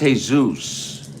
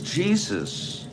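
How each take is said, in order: First: The name is said the Spanish way. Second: The name is said the English way. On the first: The speaker calls it right. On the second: The speaker calls it wrong. "This guy's name is Jesus"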